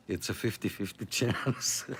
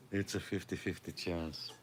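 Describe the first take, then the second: First: Chuckling through the words; amused, half laughing. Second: Quiet repeat to himself; murmured afterthought, much softer; soft echo. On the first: Joking about broken gear. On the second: Softer repeat of own joke. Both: Real, not acted.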